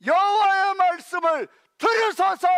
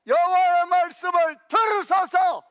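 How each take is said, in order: First: Urgent plea. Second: Shouted again, "들으소서" loud, higher, falling at the end; urgent plea. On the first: Preacher urging the congregation to listen, shouting. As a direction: shout "들으소서" loud and higher. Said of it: "preaching climax". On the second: Preacher repeating his shouted appeal to the congregation. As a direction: press the appeal home. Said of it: "preaching climax repeated". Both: Real, not acted.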